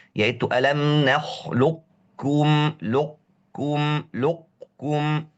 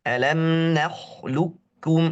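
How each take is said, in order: First: "nakhluqukum" slow, qaf partly kept before kaf; stretched "lukum" with a hint of qaf; weak variant. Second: "Alam nakhluqukum" slow, qaf fully merged into kaf; drawn-out "nakhluqukum" straight to kaf; full idgham. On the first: Teacher demonstrating the rare minority reading. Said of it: "mazhab tidak kuat". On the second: Teacher modelling the accepted reading. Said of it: "Langsung kaf". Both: Shown as a demonstration.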